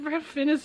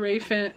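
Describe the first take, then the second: First: The first name is said as Ralph. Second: The first name is said as Rafe. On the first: The speaker calls it wrong. "I almost said Ralph Fiennes again" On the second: The speaker calls it right. "So those are my top five Rafe Fiennes"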